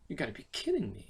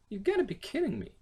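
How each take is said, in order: First: Said in the usual way. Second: High disbelief. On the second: Shown as a demonstration. Demo, higher.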